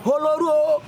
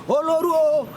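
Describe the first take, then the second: No difference in how they are said.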